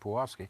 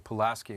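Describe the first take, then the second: First: The name has a Polish pronunciation. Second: The name has an American English pronunciation. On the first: This is the original Polish way of saying it. "instead of Pulaski" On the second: This is how people in the United States say it. "we say Pulaski"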